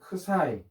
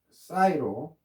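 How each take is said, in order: First: The word begins with a k sound. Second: The word begins with an s sound. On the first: This is the older Greek-style name. "옛날에는 선생님 때는 크사이 뭐 이렇게 피에스아이 해서 크사이로 배웠는데" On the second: This is the current American-style name. "지금은 이제 미국식 발음 ... 사이로 발음합시다"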